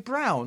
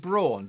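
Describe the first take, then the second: First: The name sounds like the colour brown. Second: The name does not sound like brown. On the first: "apparently you say brown" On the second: "I've spent my life saying Braun"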